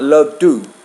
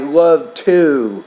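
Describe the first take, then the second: First: The vowel in 'to' is short. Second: The vowel in 'to' is long. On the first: The speaker calls it wrong. "not love to" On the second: The speaker calls it right. "so that vowel's longer"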